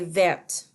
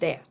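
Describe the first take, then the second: First: The word ends with a clearly heard T. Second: The word ends without any T sound. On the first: It is the feminine form. "it has more of a hard T sound. So you would say vert" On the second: It is the masculine form. "instead of vert"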